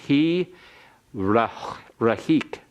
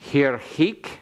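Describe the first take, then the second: First: A short vowel is heard right after the r. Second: The r closes the syllable with no vowel after. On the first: The speaker calls it right. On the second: The speaker calls it wrong.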